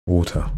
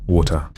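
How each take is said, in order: Both takes have the same delivery.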